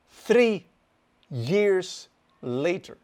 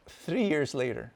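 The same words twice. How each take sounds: First: "three years later" slow, each word set apart; emphatic repetition. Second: Said in the usual way. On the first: Real, not acted. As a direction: punch THREE high and loud, then draw out "years later". Repeats phrase slowly for emphasis.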